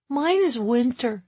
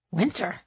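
First: Put-on proudly stated, higher boyish voice; proud child. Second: WINTER as a soft, puzzled question. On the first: Boy telling mom his favorite season, proudly. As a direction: announce it like a proud little boy. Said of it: "he stated proudly". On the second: Mother checking her son's answer, WINTER questioned. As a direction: query the word WINTER, quieter than a statement. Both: A narrator's reading.

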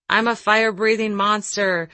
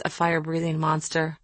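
First: Mildly roared, higher-pitched boast; a storyteller's light mock roar to delight children; playful monster roar. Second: Said in the usual way. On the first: A narrator's reading. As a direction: raise the voice a little, playing the monster. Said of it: "he roared to my kids". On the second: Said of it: "You know why? Because he was".

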